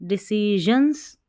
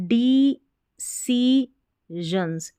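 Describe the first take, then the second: First: Said in the usual way. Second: "decisions" drawn out in separate syllables. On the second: Shown as a demonstration. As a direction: break "decisions" slowly into de-ci-sions. Teacher sounds out the new word. ("decisions" को धीरे-धीरे तोड़कर)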